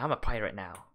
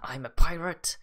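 First: It is said in his own normal voice. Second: It is said in a put-on pirate voice.

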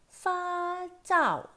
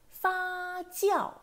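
First: The second syllable has no 'ee' glide. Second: The second syllable has an 'ee' glide. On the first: The speaker calls it wrong. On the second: The speaker calls it right.

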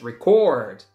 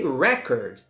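First: The stress falls on the second syllable. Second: The stress falls on the first syllable. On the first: It is a verb: to capture audio or video. "So the final syllable is stressed" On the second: It is a noun: a best achievement. "If it's a noun, it's a record"

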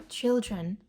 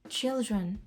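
Both takes have the same delivery.

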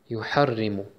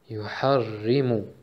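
First: The word is said fast. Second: The word is said at medium pace.

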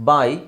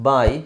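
The two takes are said the same way.

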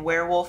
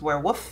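First: The L sound is pronounced clearly. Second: The L sound is left out. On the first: The speaker calls it right. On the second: The speaker calls it wrong.

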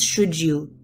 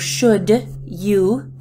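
First: The D and Y merge into a J sound. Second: The D and Y are said separately.

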